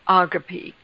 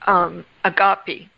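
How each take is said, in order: First: It is pronounced the Greek way. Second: It is pronounced the American way. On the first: The speaker calls it right. "in the Greek, the right pronunciation is agape" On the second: The speaker calls it wrong. "in America we pronounce it agape"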